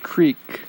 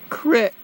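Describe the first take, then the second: First: The vowel is a long 'ee' sound. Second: The vowel is a short 'ih' sound. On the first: "not creek" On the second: "I say crick"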